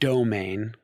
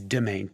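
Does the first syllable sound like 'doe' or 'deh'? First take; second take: doe; deh. First: The first syllable sounds like 'doe'. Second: The first syllable sounds like 'deh'. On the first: The speaker calls it wrong. "not domain, as many people get it wrong" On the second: The speaker calls it right. "It's domain, D E M A I N"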